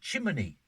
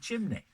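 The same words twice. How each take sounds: First: The word is said in a local northern form. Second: The word is said in the standard form. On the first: "another one is um, uh, chimney" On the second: "instead of chimney"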